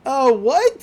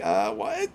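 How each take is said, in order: First: Higher, louder squeaky startled what; imitating a ditzy girl caught off guard; Mako's bewildered what. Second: Said in the usual way. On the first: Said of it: "And Mako's like". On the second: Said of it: "Mitsuki's like".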